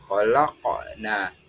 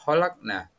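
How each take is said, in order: First: The q sound is released with a bounce. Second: The q sound is plain, with no bounce. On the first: "menggunakan hukum tajwid, mantul yakni hukum qalqalah" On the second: "tulisannya kita membaca kholakna"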